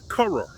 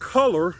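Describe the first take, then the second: First: The word is said without an L sound. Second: The word is said with a clear L sound. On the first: "they cannot even pronounce the term color, they will say color" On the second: "if I said the word color in English"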